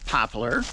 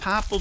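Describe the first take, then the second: First: The word ends in an 'ar' sound. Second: The word ends in a plain 'el' sound. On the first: This is the standard form. "I think the correct pronunciation is poplar" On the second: This is the regional form from home. "where I grew up, a lot of people say popple"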